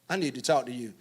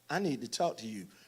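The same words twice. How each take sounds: First: It sounds exasperated, as if annoyed at someone else. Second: It sounds sweet, as if smoothing something over.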